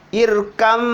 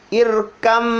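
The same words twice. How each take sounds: Both takes have the same delivery.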